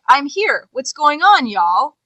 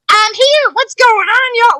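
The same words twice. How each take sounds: First: It is read in a plain, natural voice. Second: It is read in a put-on character voice. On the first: The line is just read off the page. "you can read it as like" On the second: A voice is added but the physicality is still missing. "even if they're trying to do it in a voice"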